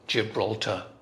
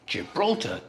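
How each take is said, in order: First: Every syllable gets the same stress. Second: One syllable is stressed more than the others. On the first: "every syllable is stressed the same" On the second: "In English, it's"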